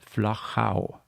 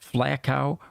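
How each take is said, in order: First: It is said with an Austrian German pronunciation. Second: It is said with another English-speaking pronunciation. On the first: The speaker calls it right. "the German and the Austrian pronunciation" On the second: The speaker calls it wrong. "or anything like that"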